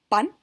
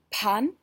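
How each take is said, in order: First: The p has no puff of air after it. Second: The p has a puff of air after it. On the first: The speaker calls it right. "correctamente diríamos" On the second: The speaker calls it wrong. "lo incorrecto sería decir"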